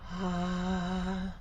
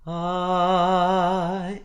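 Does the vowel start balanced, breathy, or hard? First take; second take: breathy; balanced. First: The vowel starts with audible breath before voice. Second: The vowel starts cleanly, neither hard nor breathy. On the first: "a breathier onset" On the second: "a balanced or coordinated onset"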